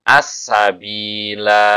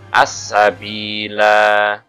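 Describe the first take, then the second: First: The final vowel is lengthened. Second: The final vowel is lengthened.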